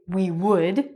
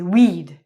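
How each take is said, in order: First: Both words are said fully and separately. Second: The words are shortened into one syllable. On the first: "we don't say we would" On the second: "when we speak English quickly, we say we'd"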